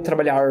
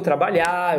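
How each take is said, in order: First: The final R is clearly pronounced. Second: The final R is dropped. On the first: The speaker calls it wrong. "Eu não falo amanhã eu vou trabalhar" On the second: The speaker calls it right. "a gente sempre apaga o R dele"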